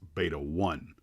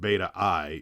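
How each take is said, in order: First: The final part is said as the number 'one'. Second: The final part is said like the letter 'eye'. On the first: The speaker calls it right. "it's Beta one" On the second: The speaker calls it wrong. "I have been mispronouncing"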